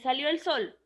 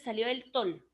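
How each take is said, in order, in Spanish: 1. La última palabra empieza con sonido s. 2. La última palabra empieza con sonido t. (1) "no digo eh" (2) "La S la cambié por la T"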